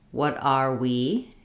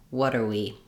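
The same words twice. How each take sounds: First: "what are we" slowly, word by word, voice rising at the end; careful full form. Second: "what are we" run together as "water-we", falling; linked reduced form. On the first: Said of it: "We'll practice for". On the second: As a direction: link "what are we" smoothly, are shrunk to "er". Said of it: "it sounds like". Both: Shown as a demonstration.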